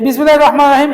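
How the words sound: It is recited quickly and carelessly. The phrase is treated as unimportant. The speaker calls it wrong. "এমন দ্রুতভাবে পড়ছে এবং অবহেলার সহিত পড়ছে"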